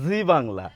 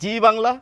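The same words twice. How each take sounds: First: The first word begins with a z sound. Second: The first word begins with a j sound. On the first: The speaker calls it right. "সেখানেও কিন্তু আমরা এই জয়ের উচ্চারণটা করব" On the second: The speaker calls it wrong. "তাহলে কি ভুল হবে?"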